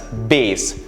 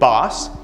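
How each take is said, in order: First: The vowel is long, rhyming with base. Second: The vowel is short, rhyming with mass. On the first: It names low-pitched sound or music. "it's pronounced B A S E or bass" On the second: It names a kind of fish. "It's a kind of fish"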